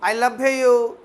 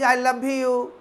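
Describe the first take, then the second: No difference in how they are said.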